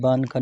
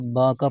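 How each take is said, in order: First: The n is pronounced as a full consonant. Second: The n is only a nasal vowel colouring. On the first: The speaker calls it wrong. "ये बान का नहीं होगा" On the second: The speaker calls it right. "बल्कि बांका पढ़ा जाएगा"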